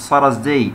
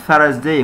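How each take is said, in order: First: Thursday said as "Sursday"; wrong s sound. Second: Thursday with a voiceless th; correct th. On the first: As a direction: start Thursday with s instead of th. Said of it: "مش Thursday". (Thursday بالسين بدل الثاء) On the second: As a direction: start Thursday with tongue between teeth. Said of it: "Thursday مش Thursday". (Thursday بصوت الثاء) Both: Shown as a demonstration.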